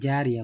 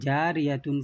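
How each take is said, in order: First: The word ends with a soft h sound. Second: The word ends with a full tun sound.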